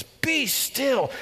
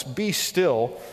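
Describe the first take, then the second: First: High, ringing command; God speaking in first person, commanding; God's voice. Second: Said in the usual way. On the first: Pretend. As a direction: call it out like God interrupting. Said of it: "He breaks into first person narrative and he says". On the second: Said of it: "Now, the words".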